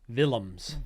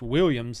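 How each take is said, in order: First: The name begins with a soft V sound. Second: The name begins with a W sound. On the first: "they say it's spelled with a V" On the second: "is the way I say it"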